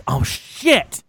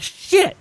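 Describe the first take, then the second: First: Drawn-out mock "oh no" realisation; hammed-up sinking realisation; dawning dread. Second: Very high, squeaked curse; tiny high-pitched yelp of dread; mock panic. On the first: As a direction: let the panic sink in. Retold realisation at customs. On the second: Retold panic at customs, repeated.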